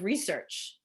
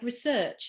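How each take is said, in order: First: It is said in an ordinary American accent. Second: It is said in a put-on transatlantic accent.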